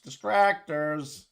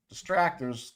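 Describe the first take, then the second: First: Distractors. stretched very slow, every syllable held; drawn out. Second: Said in the usual way. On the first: Shown as a demonstration. Streamer mocking a word for chat, stretched very slow.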